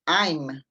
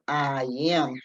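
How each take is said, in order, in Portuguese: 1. Se fala em uma sílaba só, curta. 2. Se fala em duas sílabas separadas. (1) "é uma vez só" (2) "eu abro minha boca duas vezes, porque tem duas sílabas"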